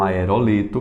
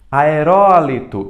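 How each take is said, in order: First: The stress is on the syllable li. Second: The stress is on the syllable ro. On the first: The speaker calls it wrong. "e não aerolito" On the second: The speaker calls it right. "Também temos as proparoxítonas"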